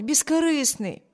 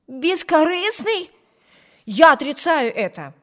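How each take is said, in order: First: Higher-pitched, sincere praise; earnest defence. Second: Objecting. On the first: Sister defends Bruce to her brother, earnest. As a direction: insist on it gently and sincerely. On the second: Brother rejects his sister's praise of Bruce, objecting. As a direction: throw the word back in disbelief. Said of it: "возразил Виберт". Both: A narrator's reading.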